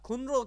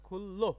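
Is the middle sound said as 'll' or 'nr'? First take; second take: nr; ll. First: The middle is said with 'n' then 'r'. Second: The middle is said as a double 'l'. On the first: The speaker calls it wrong. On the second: The speaker calls it right.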